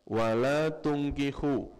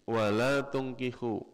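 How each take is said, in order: No difference in how they are said.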